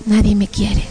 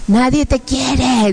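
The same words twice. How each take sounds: First: Said in the usual way. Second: Slow, drawn-out demonic taunt; taunting demons. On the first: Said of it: "Y yo". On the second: Acted. Demons tell her nobody loves her, slow taunt. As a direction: stretch the words out as an accusing demon. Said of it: "decían".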